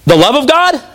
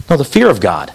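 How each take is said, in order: First: "The love of God?" higher, as a doubtful question; mock questioning. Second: "fear of God" low, falling, final; firm correction. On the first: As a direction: offer "love" as a wrong guess, pitched up. Wrong answer offered as question. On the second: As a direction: correct it with "fear", dropping deep at the end. Corrects the wrong answer. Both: Shown as a demonstration.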